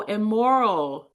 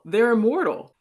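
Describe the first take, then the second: First: "immoral" slow, each syllable leaned on; stress on immoral. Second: Said in the usual way. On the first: Acted. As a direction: correct "immoral" slowly, firmly, not "immortal". Correction of misheard word.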